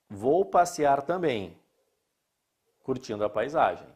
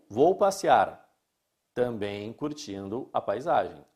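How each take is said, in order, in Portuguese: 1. A pausa vem depois de 'também'. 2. A pausa vem antes de 'também'. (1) "Eu também vou passear" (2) "Além de passear, eu vou curtir a paisagem"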